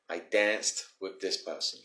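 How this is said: It is said with an American accent.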